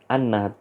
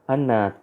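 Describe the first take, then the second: First: The word ends with a t sound. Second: The word ends with a t sound.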